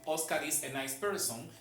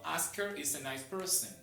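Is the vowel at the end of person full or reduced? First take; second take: full; reduced. First: The final syllable has a full O vowel. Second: The final syllable has a weak, reduced vowel. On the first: The speaker is not fluent in English. The speaker calls it wrong. "un nativo en inglés jamás le va a decir" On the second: The speaker is a native English speaker. The speaker calls it right.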